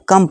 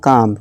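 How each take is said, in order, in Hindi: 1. स्वर एक छोटी uh ध्वनि है। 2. स्वर एक लंबी खुली aa ध्वनि है। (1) "इसको कम पढ़ेंगे" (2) "या काम"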